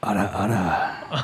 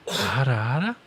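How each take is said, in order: First: Low, slow teasing ara ara; seductive ara ara. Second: Teasing ara ara. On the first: Acted. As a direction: purr it low like a teasing anime lady. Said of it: "an ada ada from [name]". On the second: Shown as a demonstration. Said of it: "I was expecting Alex to do it, uh, like this".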